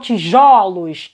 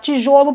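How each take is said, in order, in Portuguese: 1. A vogal o tônica soa aberta. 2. A vogal o tônica soa fechada. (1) "Esse O abre" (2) "quando eu falo no singular, o timbre é fechado"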